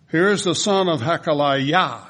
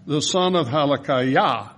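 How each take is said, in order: First: "Hakaliah" said ha-ka-lai-YAH, weight on the last syllable; Hebrew final stress. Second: "Halakiah" said hal-a-KI-ah, ordinary English stress before the correction; usual English stress. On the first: Pastor shows the congregation the Hebrew stress on the last syllable. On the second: Pastor reads Halakiah the ordinary way, then corrects it. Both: Shown as a demonstration. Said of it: "will be accented on the last syllable".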